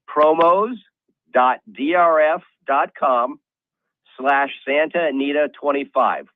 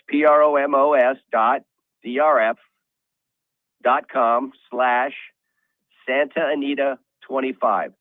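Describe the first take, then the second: First: It is read at normal speed. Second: It is read slowly, spelled out.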